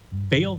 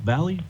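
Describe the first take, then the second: First: The name is said as one syllable. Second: The name is said as two syllables. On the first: "how do you pronounce it? Vale?"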